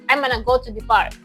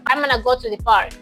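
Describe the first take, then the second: The two takes are said the same way.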